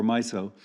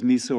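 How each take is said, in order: First: Miso said as MY-so; miso, first syllable like "my"; alternative pronunciation. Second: Miso said as MEE-so; miso, first syllable like "me"; alternative pronunciation. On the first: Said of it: "I don't know if it's". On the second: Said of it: "I always mispronounce it". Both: Shown as a demonstration.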